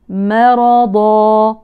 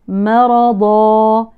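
Both takes have the same delivery.

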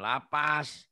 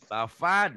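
First: The middle consonant is a p sound. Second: The middle consonant is an f sound. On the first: The speaker calls it wrong. "Lapas mah tak itu penjara lapas" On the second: The speaker calls it right. "Lafad bukan lapas"

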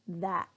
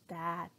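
First: The final T is cut off in the throat, unreleased. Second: The final T is fully released with a puff of air. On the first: The speaker calls it right. "but that" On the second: The speaker calls it wrong. "I don't say that"

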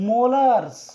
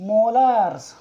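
Both takes have the same delivery.

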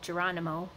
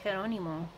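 First: The name is said with an English pronunciation. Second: The name is said with a Spanish pronunciation. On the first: "as people know him" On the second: "I use the Spanish pronunciation"

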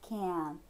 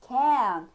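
First: The word is said lightly with a weak vowel. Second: The word is said with a full, stressed vowel. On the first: It means the positive form, being able to. The speaker calls it right. "a gente vai falar ele de uma maneira bem leve" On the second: It sounds like the negative form. The speaker calls it wrong. "como se tivesse um acento ali no E"

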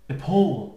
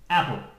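First: The stress falls on the second syllable. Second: The stress falls on the first syllable. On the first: The speaker calls it right. "we say the syllable stronger" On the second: The speaker calls it wrong. "And not. Apple. Because it sounds like a fruit"

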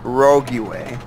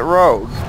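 First: The word is said with a French-style extra ending. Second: The word is said the plain English way. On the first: The speaker calls it right. "it's actually pronounced rogue way. From the French" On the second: The speaker calls it wrong. "A lot of you pronounce it rogue"

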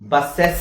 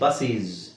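First: The second syllable has a clear eh vowel. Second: The second syllable has a long ee vowel. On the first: "ಬಸ್ಸೆಸ್ ಅಂತ ಹೇಳಂಗಿಲ್ಲ" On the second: "ಬಸ್ಸೀಸ್ ಅಂತ ಹೇಳಂಗಿಲ್ಲ"

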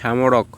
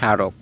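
First: An m sound is pronounced after the first consonant. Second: No m sound is pronounced after the first consonant. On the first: The speaker calls it wrong. "আমরা কি বলি স্মারক না" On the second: The speaker calls it right. "শব্দের শুরুতে ম ফলা থাকলে ম উচ্চারিত হয় না"

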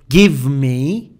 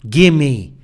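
First: Both words are said fully and separately. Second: The words blend together into one reduced word. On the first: The speaker calls it wrong. "They don't say give me" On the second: The speaker calls it right. "In American English, it is give me"

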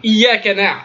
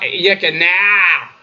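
First: The ain sound is simple and not nasal. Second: The ain sound is nasal and exaggerated. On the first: The speaker calls it right. "un aïn simple" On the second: The speaker calls it wrong. "pas prononcé avec le nez, et c'est pas exagéré"

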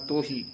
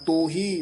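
First: The first vowel is between o and u. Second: The first vowel is a full o sound. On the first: The speaker calls it right. "ਦਰਮਿਆਨਾ ਜਾਂ ਬੋਲ ਜਾਣਾ ਤੋਹੀ" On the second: The speaker calls it wrong. "ਨਾ ਕਹਿਣਾ ਤੋਹੀ"

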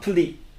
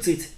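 First: It is said linked in an American way. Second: It is said in a British way. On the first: "put it っていう感じになってますね" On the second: "イギリス風に言うとput it でもいいんですけども"

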